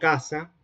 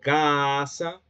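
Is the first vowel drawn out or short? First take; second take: short; drawn out. First: The first vowel is short and plain. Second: The first vowel is drawn out long. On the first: "allí no estoy alargando las vocales" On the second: "ahí estoy alargando la primera vocal"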